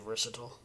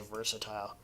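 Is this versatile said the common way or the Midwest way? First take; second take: common; Midwest. First: It is said the way most people say it. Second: It is said in the speaker's Midwest way. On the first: "most people say versatile" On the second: "I say versatile"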